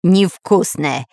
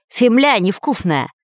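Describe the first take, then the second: First: Невкусная spoken slowly and distinctly; Невкусная clearly articulated, mouth now empty. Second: Фемля mumbled through a mouthful of earth; фемля невкусная said with dirt in the mouth; mouth full. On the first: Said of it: "наконец внятно произнёс". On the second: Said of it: "вытаскивая изо рта комья". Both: Acted.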